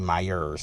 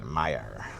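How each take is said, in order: First: The name ends with an added s sound. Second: The name ends without any s sound. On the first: The speaker calls it wrong. "I didn't say Myers" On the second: The speaker calls it right. "I said it right that time"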